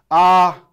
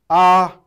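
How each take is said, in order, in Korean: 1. 성조는 처음부터 끝까지 같아요. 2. 성조는 처음부터 끝까지 같아요.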